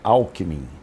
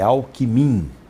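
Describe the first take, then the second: First: The stress is on the first syllable. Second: The stress is on the last syllable. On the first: The speaker calls it wrong. "não é Alckmin ... palavra paroxítona não ganha eleição" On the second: The speaker calls it right. "é Alckmin ... só oxítona"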